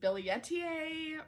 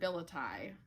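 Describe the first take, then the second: First: The name is said with an extra final syllable. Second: The name is said in a short, clipped form. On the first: Others say this is the proper pronunciation. "I've heard that it is Billietiae or something like that" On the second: This is how the speaker usually says it. "I pronounce it as Philodendron billeti"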